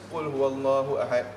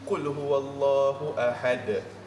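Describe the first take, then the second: First: The final d is rushed and sounds like t. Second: The final d is released with a bounce. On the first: The speaker calls it wrong. "kita jadi ta semuanya instead of dal" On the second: The speaker calls it right. "make sure ada lajak kat situ"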